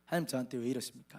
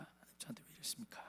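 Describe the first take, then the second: First: Said in the usual way. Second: 하나님 저한테 왜 이러십니까 breathed in an unvoiced whisper; much softer whispered prayer; whispered lament. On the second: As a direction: whisper the plea, almost to yourself.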